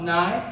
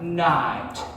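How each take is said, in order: First: The final t sound is dropped. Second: The final t sound is clearly pronounced. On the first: The speaker calls it wrong. "not night" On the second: The speaker calls it right. "it goes like night"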